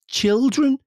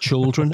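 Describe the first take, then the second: First: The first syllable sounds like chil. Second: The first syllable sounds like chul. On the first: The speaker calls it right. "she's right. It's ch- chilled" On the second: The speaker calls it wrong. "I'm pronouncing it C H U L. It's like children, and that's what I do"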